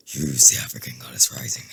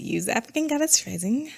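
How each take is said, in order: First: Very low put-on voice; corrected imitation of him. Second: High, lilting mock voice; joking voice for him. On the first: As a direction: drop right down to imitate him. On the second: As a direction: tease him with a higher put-on voice. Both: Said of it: "He don't sound like that".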